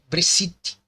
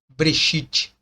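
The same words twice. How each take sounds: First: The middle consonant is a plain 's' sound. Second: The middle consonant is an 'sh' sound. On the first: This is the Greek rendering without 'sh'. "o shi, shi, ela não existe na língua grega. Ele tem somente a letra S" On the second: This is the original Hebrew form. "Não é mais Breshit"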